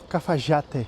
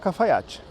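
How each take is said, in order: First: The name is said with an Argentine accent. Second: The name is said without an Argentine accent.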